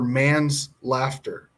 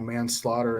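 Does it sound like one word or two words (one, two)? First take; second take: two; one. First: It is split as man's plus laughter. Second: It is said as a single word. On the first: It sounds like the man was laughing. The speaker calls it wrong. "I read it that he got convicted for man's laughter" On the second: It names the crime of killing someone. The speaker calls it right. "I learned that it was, you know, manslaughter"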